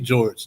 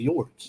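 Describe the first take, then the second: First: It is said with a standard English accent. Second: It is said with a Spanish accent.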